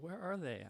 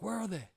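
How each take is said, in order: First: The line is said quietly, in a higher pitch. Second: The line is screamed loudly. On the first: The speaker calls it right. "I didn't scream it. I guess a little higher pitch" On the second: The speaker calls it wrong. "I didn't scream it like that"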